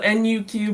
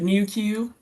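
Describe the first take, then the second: First: Each letter is said separately, N-U-Q. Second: It is said as two words, "new Q." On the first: "This is so N U Q" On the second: "but we pronounce it New Q"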